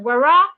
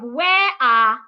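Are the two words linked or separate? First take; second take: linked; separate. First: The two words are linked with an R sound. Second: The two words are said separately without linking. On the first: The speaker calls it right. "So I should link them" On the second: The speaker calls it wrong. "instead of"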